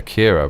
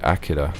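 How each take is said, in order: First: It is pronounced with an American accent. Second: It is pronounced without an American accent. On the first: The speaker calls it wrong. "Americans say Akira" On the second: The speaker calls it right. "but it's actually Akira"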